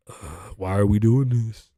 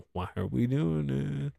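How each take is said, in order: First: Slow, drawn-out exasperation; fed-up, dragging complaint; exasperated groan. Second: Slow, softer drawn-out lament; quiet, stretched-out exasperation; weary plea. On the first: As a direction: groan it out, stretched and fairly full-voiced. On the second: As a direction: let it trail out long and soft. Repeats the complaint more softly. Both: Real, not acted.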